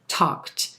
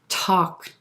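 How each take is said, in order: First: The word ends with a voiceless T sound. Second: The word ends with a voiced D sound. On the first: The speaker calls it right. "the T sound flows much easier" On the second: The speaker calls it wrong. "It's hard to get that D in there"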